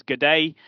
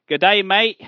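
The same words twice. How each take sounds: First: Said in the usual way. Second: Raised, louder stab at an Australian accent; hammed-up Aussie greeting that misses; bad Australian accent. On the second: Shown as a demonstration. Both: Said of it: "that's a really bad accent".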